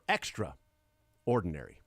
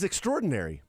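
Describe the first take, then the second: First: A pause splits the word after extra. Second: The word is said smoothly without a pause. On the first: The person is very ordinary. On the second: The person is exceptional.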